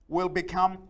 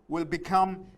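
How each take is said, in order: Both takes have the same delivery.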